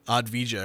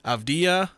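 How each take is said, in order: First: The d sound comes before the v sound. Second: The v sound comes before the d sound. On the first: The speaker calls it wrong. "I keep wanting to say like Advija" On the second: The speaker calls it right. "I think I said that right"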